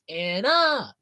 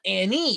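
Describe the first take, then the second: First: The word ends in an 'uh' sound. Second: The word ends in an 'ee' sound. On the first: The speaker calls it right. "it's Anna" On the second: The speaker calls it wrong. "It's not Annie"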